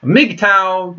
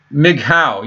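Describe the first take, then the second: First: Mgtow said "mig-tow" with a hard T and an "ow" ending. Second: Mgtow said as "mig-how", with an H sound where the T is. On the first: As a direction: say mgtow with a T and a rhyme on "ow". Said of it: "that kind of has a weird sound to it". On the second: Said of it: "I would change the T to an H". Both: Shown as a demonstration.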